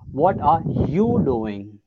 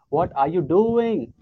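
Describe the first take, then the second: First: The stress falls on the word you. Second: The stress falls on the word doing. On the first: "if you're going to focus on the third letter U" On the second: "if you're going to focus on the last thing"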